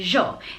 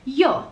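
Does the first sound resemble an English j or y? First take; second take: j; y. First: It begins with a j sound. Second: It begins with a y sound. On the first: "They say a j sound" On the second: "instead of a y"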